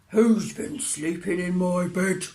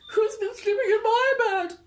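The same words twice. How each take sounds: First: It is said in a deep growling voice. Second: It is said in a high wailing voice.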